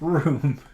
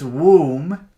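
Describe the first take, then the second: First: The word begins with a clear r sound. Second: The word begins with a w-like sound. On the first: The speaker calls it right. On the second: The speaker calls it wrong.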